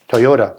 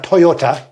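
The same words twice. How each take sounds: First: The last consonant is a D sound. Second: The last consonant is a T sound. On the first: The speaker calls it right. "with a D" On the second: The speaker calls it wrong. "not Toyota"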